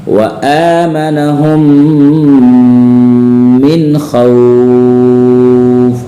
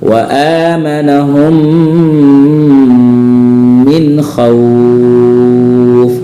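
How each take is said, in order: The two takes are said the same way.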